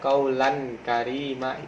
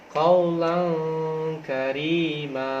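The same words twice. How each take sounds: First: The n is said plainly without a nasal hum. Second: The n is held with a long nasal hum. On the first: The speaker calls it wrong. "itu salah" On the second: The speaker calls it right. "bacanya harus didengungkan"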